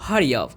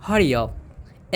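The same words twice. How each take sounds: First: Said in the usual way. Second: "Hurry up" drawn out slowly and clearly; slow it down so students can copy; slow teaching repeat. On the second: Shown as a demonstration. (धीरे से साफ़ उच्चारण) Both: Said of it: "हमें बोलना है जल्दी करो".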